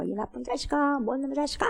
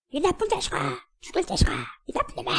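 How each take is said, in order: First: Imitated angry cursing, held back in volume; mock straining yell. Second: Curses bouncing back off the mountain; imitated echo. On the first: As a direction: mimic a boy straining to curse. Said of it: "아글아글 쓰면서". (악쓰는 아이 흉내) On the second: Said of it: "이 소리가 자기 귀에 다시 돌아와". (메아리처럼 되돌아오는 높은 소리)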